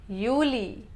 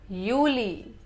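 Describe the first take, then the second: No difference in how they are said.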